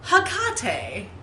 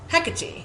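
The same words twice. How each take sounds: First: The stress falls on a later syllable. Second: The stress falls on the first syllable. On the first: The speaker calls it wrong. "that's how he says it" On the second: The speaker calls it right. "the first syllable gets it"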